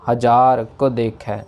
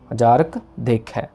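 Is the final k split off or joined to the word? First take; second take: split off; joined. First: The k is split off from the word. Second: The k is joined to the word. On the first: The speaker calls it wrong. "इसमें क अलग नहीं करना, हजार को देख है ऐसे नहीं" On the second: The speaker calls it right. "हजारक एक साथ है"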